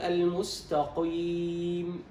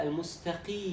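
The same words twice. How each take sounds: First: "المستقيم" drawn out with too heavy a qi; over-thicken the ق in "المستقيم"; over-heavy qaf, wrong. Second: "المستقي" with the qi at its lightest degree of heaviness; light qaf, correct. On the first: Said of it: "فلا تقل". (مبالغة في تفخيم قاف "المستقيم") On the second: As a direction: keep the ق of "المستقي" only slightly heavy, slowly. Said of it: "لا، المستقي". (أدنى درجات تفخيم القاف في "المستقي") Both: Shown as a demonstration.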